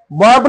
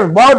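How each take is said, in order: First: "बॉम्ब" with a sounded B at the end; wrong pronunciation. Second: "बॉम्ब" said as bom; silent B. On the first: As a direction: say "बॉम्ब" as bom-buh. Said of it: "बॉम्ब नाही". ("बॉम्ब", शेवटचा ब उच्चारून) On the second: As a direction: end "बॉम्ब" firmly on M, no B. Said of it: "बॉम्ब म्हण". ("बॉम्ब", ब silent ठेवून) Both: Shown as a demonstration.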